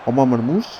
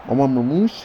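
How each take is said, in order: Both takes have the same delivery.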